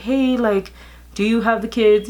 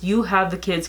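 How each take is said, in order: First: Higher, brighter friendly ask; friendly version. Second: Curt, flat question with no greeting; blunt version. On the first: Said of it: "It wasn't like". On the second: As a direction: ask bluntly, no warmth. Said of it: "No, it's just". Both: Shown as a demonstration.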